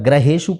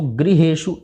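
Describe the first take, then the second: First: The first syllable is said as gra. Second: The first syllable is said as gri. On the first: The speaker calls it wrong. "अगर ग्रहेषु पढ़ेंगे तो गलत हो जाएगा" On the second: The speaker calls it right. "इसको गृहेषु"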